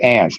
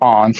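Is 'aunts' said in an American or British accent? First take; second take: American; British. First: It is said with an American accent. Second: It is said with a British accent. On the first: "I said aunts ... because I'm speaking American English here" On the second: "not aunts"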